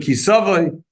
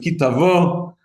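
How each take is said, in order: First: It is said in Ashkenazic Hebrew pronunciation. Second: It is said in Sephardic Israeli Hebrew pronunciation.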